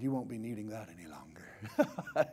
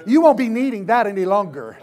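First: Low, soft, half-whispered line; hushed aside. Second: Loud, raised preacher's proclamation; fired-up pulpit shout; shouted declaration. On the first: Acted. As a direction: say it quietly with a private chuckle. Quiet first take, Jesus tossing coat. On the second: Real, not acted. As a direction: proclaim it forcefully to the congregation. Same words preached out loud.

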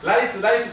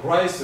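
First: ライス said with an L in place of R; raised ライス with an L, as Japanese speakers say it; Japanese-style L. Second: ライス said with a proper English R. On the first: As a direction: say ライス starting with a plain tongue-tip L. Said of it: "これを日本人は". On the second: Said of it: "勉強してできるようになってる". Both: Shown as a demonstration.

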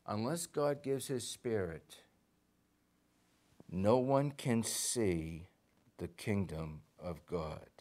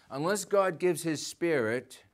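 First: Slow, deliberate rereading; slow reading for the congregation; slowly. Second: Said in the usual way. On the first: Shown as a demonstration. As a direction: lay each word down slowly. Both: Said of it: "let's read it again slowly".

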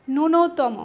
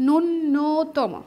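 First: ন্যূনতম said nunotom, single n; correct pronunciation. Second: ন্যূনতম drawn out very slowly, doubled n: nunnotom; pronunciation demo. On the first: Teacher models ন্যূনতম for students, clear and careful. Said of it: "এটা সঠিক উচ্চারণ হচ্ছে". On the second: Teacher drills ন্যূনতম for students, very slow and deliberate. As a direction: stretch ন্যূনতম, lean on the double n. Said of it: "সঠিক উচ্চারণ হবে কি". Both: Shown as a demonstration.

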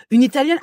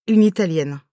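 First: High, rising incredulous echo; mock shock, pitched well up; acted disbelief. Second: Said in the usual way. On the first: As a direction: throw it back as a stunned question. Echoes the request in disbelief.

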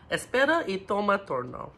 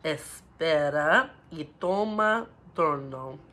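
First: Quicker take. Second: Put-on slow, careful Spanish phrase for kids; slow demo. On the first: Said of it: "let's say it a little bit quicker". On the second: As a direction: model it slowly, syllable by syllable. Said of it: "having a slow accent". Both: Shown as a demonstration.

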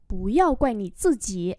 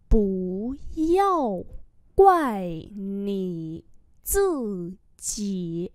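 First: Said in the usual way. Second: Very slow, syllable by syllable; slow model reading. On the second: Shown as a demonstration. Teacher modelling Chinese phrases for learners, slow and drawn-out. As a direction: stretch each syllable out for learners.

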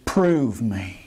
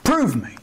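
First: Lower, solemn quote of Prove me; quoted scripture. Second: Prove punched higher; emphatic repeat. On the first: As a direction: read the words of God low and weighty. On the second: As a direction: drive the challenge home. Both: Shown as a demonstration.

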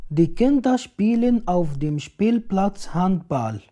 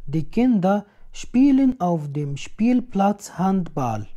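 No difference in how they are said.

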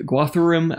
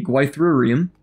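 First: "Gwathurim" pitched higher, opening with "gwah"; retry "Gwathurim" with an open "ah" in the first syllable; second pronunciation attempt. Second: Slow first try at "Gwythurium", second sound like "why"; tentative pronunciation. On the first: Narrator correcting himself on a faction name, "Gwathurim" with a "gwah" start. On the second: Narrator trying an unfamiliar faction name, tentative "Gwythurium" with a "gwy" start. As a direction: say "Gwythurium" slowly, with a "gwy" opening. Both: Real, not acted. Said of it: "someone can correct my pronunciation".

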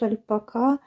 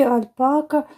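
First: "альпака" stressed on the last syllable, -ка; final-syllable stress. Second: "альпака" stressed on the middle syllable, -па-. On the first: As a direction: put the stress at the end of "альпака". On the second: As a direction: lean on the second syllable of "альпака". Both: Shown as a demonstration. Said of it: "в мене завжди сумніви в вимові".

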